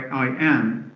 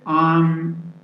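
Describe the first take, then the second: First: The vowel of am is fully pronounced. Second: The vowel is dropped, leaving only m. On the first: The speaker calls it wrong. "we don't say I, I am" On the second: The speaker calls it right. "say I'm going"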